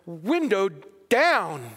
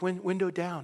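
First: It is said firmly, with commanding force. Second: It is said softly, without much force. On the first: The speaker calls it right. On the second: The speaker calls it wrong.

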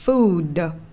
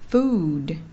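First: The final d ends with an added vowel. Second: The final d is released softly and lightly. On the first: The speaker calls it wrong. "mình đừng đọc thành là âm đờ đờ đờ trong tiếng Việt. Đừng đọc là" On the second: The speaker calls it right. "mà chỉ đọc nó rất là tinh tế thôi. Nó là"

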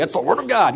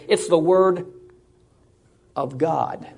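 First: It is said quickly. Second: It is said slowly.

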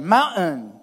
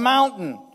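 First: The middle T sound is dropped. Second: The middle T sound is clearly pronounced.

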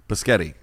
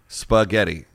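First: The word begins with a b sound. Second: The word begins with an s sound. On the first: The speaker calls it wrong. "where the fuck's a bee come from?" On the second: The speaker calls it right. "There is no B in the word anywhere"

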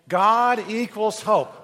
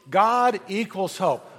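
First: It is said with more passion and energy. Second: It is said with ordinary, calm energy.

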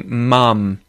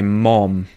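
First: The vowel is short and central, like 'uh'. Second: The vowel is open and back, like 'ah'. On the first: "we would say mum" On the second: "Americans would say mom"

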